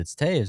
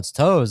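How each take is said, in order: First: The name rhymes with the word 'waves'. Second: The name sounds like the word 'toes'. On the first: The speaker calls it right. "No, you're an idiot. It's Taves" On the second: The speaker calls it wrong. "so I thought it was Toes the first time"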